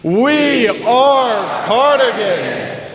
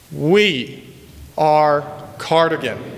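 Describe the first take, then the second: First: It is said as loudly as possible. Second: It is said at a moderate volume.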